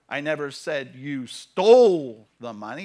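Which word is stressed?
stole. The word "stole" carries the main stress. It was borrowed, not stolen. "You borrowed it"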